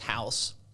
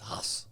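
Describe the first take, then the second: First: The vowel is an 'ow' sound, like 'house'. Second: The vowel is a long 'ah' sound. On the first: This is the American way of saying the name. "the American version is House" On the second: This is the German way of saying the name. "the German version is Haas"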